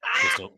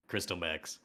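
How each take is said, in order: First: High, loud squeaked word. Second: Low, soft deadpan repeat; low mutter. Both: Acted.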